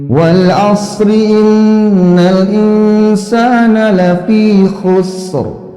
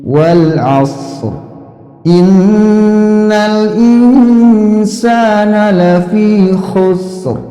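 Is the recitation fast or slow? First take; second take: fast; slow. First: It is recited quickly with the verses joined. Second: It is recited slowly with the verses separated. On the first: "Kalau dicepetin" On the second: "dibaca dengan tempo yang eh, agak lambat"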